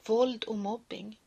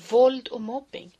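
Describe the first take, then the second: First: Said in the usual way. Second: Louder, emphatic title. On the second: Acted. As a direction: proclaim it forcefully. Title repeated loud.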